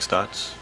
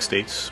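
First: The vowel sounds like 'ah' in 'pot'. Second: The vowel sounds like 'ay' in 'say'. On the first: The speaker calls it right. "pronounced like Stotts" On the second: The speaker calls it wrong. "Looks like States"

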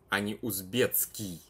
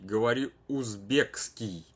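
First: The k sound merges into a ts sound. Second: The k sound is kept before the ending. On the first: This is the easier everyday form. "я говорю узбецкий, потому что так проще говорить" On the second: This is the form matching the spelling. "говори узбекский, а не узбецкий"

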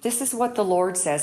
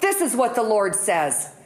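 First: It is said at a normal, soft volume. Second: It is said loudest of all three.

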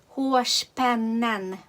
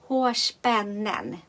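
No difference in how they are said.

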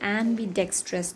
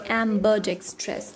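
First: The vowel after 'am' is an 'ee' sound. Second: The vowel after 'am' is an 'uh' sound. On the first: The speaker calls it wrong. "They don't say ambidextrous" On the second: The speaker calls it right. "they say ambidextrous, UH"

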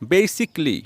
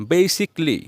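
No difference in how they are said.

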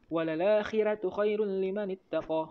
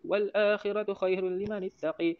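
First: The final vowel of ittaqa is an open a. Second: The final vowel of ittaqa is tilted toward e. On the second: "imalah dekat taqa"

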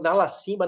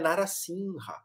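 First: The name has a 'b' before the final vowel. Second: The name has an 'h' before the final vowel. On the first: The speaker calls it wrong. "eu achava até que ele chamava Narasimba" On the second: The speaker calls it right. "não, é Narasimha"

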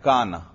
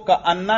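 First: It runs together with a single n sound. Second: It has a break and a doubled n sound. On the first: The speaker calls it right. "इसको का ना पढ़ें" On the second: The speaker calls it wrong. "इसको का अन्ना ना पढ़ें भाई"

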